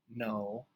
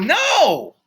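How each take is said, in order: First: It is said plainly and calmly. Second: It is said firmly and forcefully.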